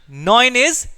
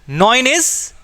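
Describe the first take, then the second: No difference in how they are said.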